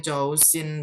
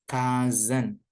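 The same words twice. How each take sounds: First: COUSIN read letter by letter as "chow-sin"; read as spelled. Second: COUSIN said "KUZ-un", S as Z; correct pronunciation. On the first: Teacher shows how the word is written, spelling pronunciation "chow-sin". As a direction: say "Chousin" with CH and a hissed S. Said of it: "ini tulisannya Chousin". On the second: Teacher models the reading for students, "KUZ-un" with Z sound. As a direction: say "Cousin" with a K and a buzzing Z. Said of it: "bacanya S-nya jadi Z ya". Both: Shown as a demonstration.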